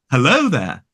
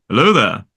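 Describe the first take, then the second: First: "Hello there" with a traditional RP "o" in Hello; "Hello there" as crisp Received Pronunciation; traditional RP vowel. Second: "Hello there" with a slightly transatlantic "o" in Hello; "Hello there" in a not-quite-RP accent; Alec Guinness's vowel. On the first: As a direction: quote "Hello there" in Ewan McGregor's RP accent. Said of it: "his original accent was really sort of traditional". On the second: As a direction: quote "Hello there" with the older Jedi actor's vowel. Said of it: "if you listen to Alec Guinness, it's more". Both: Shown as a demonstration.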